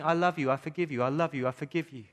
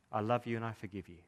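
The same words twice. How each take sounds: First: Shouting. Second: Soft, lower and gentle; husband answering every fault softly with forgiveness; tender. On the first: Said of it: "God is shouting". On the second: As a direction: read it like a quiet love note. Husband's tender note to wife. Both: Acted.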